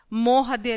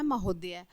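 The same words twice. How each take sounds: First: "मोहदय" with O in the first syllable; misplaced O vowel. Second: Said in the usual way. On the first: Shown as a demonstration. Teacher reads out the misspelling, "मोहदय" with O first. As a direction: say "मोहदय" as mohaday. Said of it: "महोदय ऐसे नहीं लिखते". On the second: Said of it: "और ये होता है महोदय".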